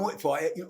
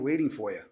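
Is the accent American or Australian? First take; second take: Australian; American. First: It is spoken with an Australian accent. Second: It is spoken with an American accent. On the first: "na Austrália" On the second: "da diferença do sotaque americano para o australiano"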